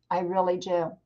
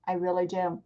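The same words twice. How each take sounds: The two takes are said the same way.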